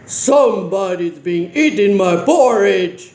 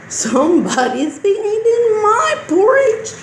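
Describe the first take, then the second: First: It is said in a big, deep voice. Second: It is said in a medium-sized voice. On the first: "in a great big voice" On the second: "in a medium-sized voice"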